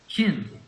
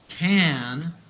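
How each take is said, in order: First: The vowel is a short, weak i sound. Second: The vowel is a full, open a sound. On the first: "we reduce it to a short I sound" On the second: "rather than saying a long A sound"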